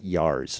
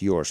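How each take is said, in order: First: The vowel sounds like 'ar'. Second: The vowel sounds like 'or'. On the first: The speaker calls it wrong. "not yars" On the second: The speaker calls it right. "It's pronounced yours"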